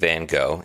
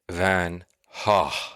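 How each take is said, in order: First: The name is said the American way. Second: The name is said the Dutch way. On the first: "is how many people in the U S say it" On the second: "the Dutch pronunciation is the correct pronunciation"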